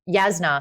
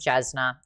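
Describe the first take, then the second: First: The name begins with a Y sound. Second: The name begins with a J sound. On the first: The speaker calls it right. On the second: The speaker calls it wrong. "If I read it, I say J"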